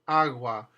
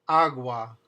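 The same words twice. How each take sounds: The two takes are said the same way.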